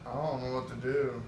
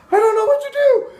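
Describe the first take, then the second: First: Soft, understated retold quote; subdued helplessness. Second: High, loud mock-girl squeal; hammed-up shrieky female voice; panicked girl. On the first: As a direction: quietly imitate a man at a loss. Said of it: "He's like". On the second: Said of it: "one girl gets jumped out of the bed and she goes".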